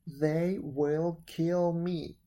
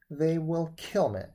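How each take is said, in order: First: Very slow narrated wail; slow, emphatic storybook lament; drawn-out wail. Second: Louder narrated wail; storybook wail of despair, kept brisk. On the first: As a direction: stretch each word out in despair. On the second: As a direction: plead loudly, in a mild wail. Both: A narrator's reading. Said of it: "wailed Wen".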